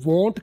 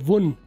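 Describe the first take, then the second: First: The word ends with a clear t sound. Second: The word ends without any t sound. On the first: "टी के साथ तो ये strong reduction है" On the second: "टी के बगैर बोले वुन तो ये वीक रिडक्शन है"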